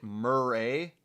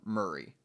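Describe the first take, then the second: First: "Murray" said as mur-RAY; Murray ending in "ray". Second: "Murray" said as MUR-ee; Murray ending in "ee". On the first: Asking how the name is said, "Murray" as mur-RAY. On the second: Offering the other name option, "Murray" as MUR-ee. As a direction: say "Murray" to rhyme with hurry. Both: Shown as a demonstration. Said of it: "is it Murray or Murray".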